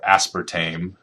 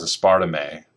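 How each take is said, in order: First: "aspartame" said as AS-per-tame; common pronunciation. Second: "aspartame" said as a-SPAR-ta-may; alternative pronunciation. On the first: Lecturer offering the other way to say a sweetener's name, "aspartame" as AS-per-tame. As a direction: stress the first syllable of "aspartame" and rhyme its end with "name". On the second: Lecturer offering one way to say a sweetener's name, "aspartame" as a-SPAR-ta-may. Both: Shown as a demonstration. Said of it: "depending on how you wanna pronounce it".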